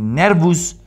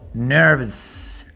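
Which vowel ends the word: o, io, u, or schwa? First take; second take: u; schwa. First: The final vowel is a full 'u'. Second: The final vowel is a reduced schwa. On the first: The speaker calls it wrong. "ni nervus" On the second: The speaker calls it right. "sino nerves"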